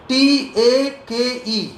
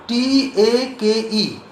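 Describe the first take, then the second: No difference in how they are said.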